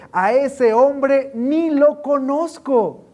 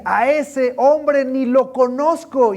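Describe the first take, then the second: First: Slow, loud, high denial; emphatic denial. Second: Slow, loud, high denial with an edge; cursing denial. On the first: Peter denying Jesus, loud and slow. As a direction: deny him hard and slow. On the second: Peter swearing he never knew him, loud slow denial. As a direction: spit out the denial slowly. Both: Acted.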